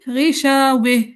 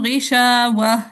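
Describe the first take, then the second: First: The final vowel is bent toward 'e'. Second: The final vowel is a plain open 'a'. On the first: "इमाला करना था। ... गिशावे ऐसे" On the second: "दूरी बसरी ने पढ़ दिया गिशावा पे फतहा"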